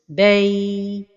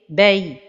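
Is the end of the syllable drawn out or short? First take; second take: drawn out; short. First: The end of the syllable is drawn out long. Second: The end of the syllable is kept short. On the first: The speaker calls it wrong. "donner beaucoup de temps vers la fin de prononciation" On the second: The speaker calls it right. "la prononciation correcte"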